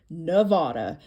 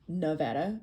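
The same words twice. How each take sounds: First: Nevada is said the way outsiders pronounce it. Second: Nevada is said the way locals pronounce it. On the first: The speaker calls it wrong. "because I don't say Nevada" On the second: The speaker calls it right. "You can tell I'm from Nevada"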